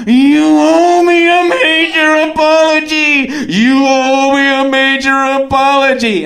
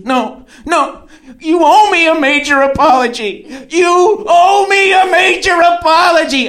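First: Mock yell with every vowel stretched out high; long-breath bellow. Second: High, forceful demand, building louder; mock angry shout. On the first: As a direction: hold each word like an over-trained singer yelling. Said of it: "You're getting out so much in one breath". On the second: Woman refusing a ride and demanding an apology, mock angry shout. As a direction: imitate a furious date yelling.

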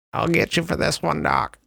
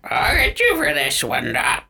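First: High squawky parrot line. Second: Parrot voice. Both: Pretend. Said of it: "can you do your best parrot voice".

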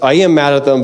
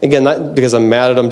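First: Am leaned on as a correction; owning it: I am mad, stressed. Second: Said in the usual way. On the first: Real, not acted. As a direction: admit it with weight on am. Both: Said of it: "just, I am mad at them".

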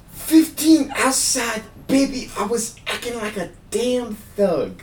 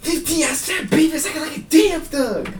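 First: Very high [name] voice, slow and drawn out. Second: Very high, shouted [name] lyrics; fast [name] flow. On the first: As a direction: spell it out slowly for a confused listener. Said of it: "You can always slow it down". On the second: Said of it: "let me just quote some lyrics here". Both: Shown as a demonstration.

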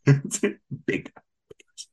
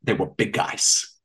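First: "big, big guys" trailed off in a whisper; catchphrase echo. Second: Slow, whispered "They were big guys" as a pet catchphrase; catchphrase quote. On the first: Repeating the catchphrase to a laughing partner, whispered. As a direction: let "big guys" fade into a voiceless murmur. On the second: Teasing a partner with a shared catchphrase, slow whisper. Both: Retold or imitated. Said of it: "have I said to you the phrase".

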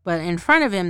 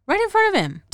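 First: Said in the usual way. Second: High, louder outraged repeat; right in front of him, high and indignant; incredulous. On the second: Real, not acted. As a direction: say it like you can't believe they did that. Repeats it in disbelief.

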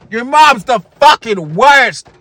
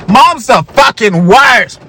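First: Slow shouted taunt in a higher put-on kid voice; hammed-up gamer kid yelling at his friend; yelling the insult at the other kid, drawn out; mock kid yell. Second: Drawn-out shouted taunt, higher; hammed-up gamer kid yelling at his friend; slow angry shout of a kid raging at a video game; mock kid yell. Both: Kids yelling at game, acted.

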